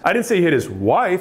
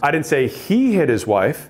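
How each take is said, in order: First: The word 'wife' is stressed. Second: The word 'he' is stressed. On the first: It may have been someone other than his wife. "It might have been his kid" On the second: The focus is on who did it. "He's the one to question"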